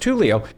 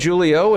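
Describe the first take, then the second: First: The name begins with a Spanish 'h' sound. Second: The name begins with an English 'j' sound. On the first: This is how the name is pronounced. The speaker calls it right. "it's pronounced Julio" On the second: Someone else said it this way. The speaker calls it wrong. "he said Julio"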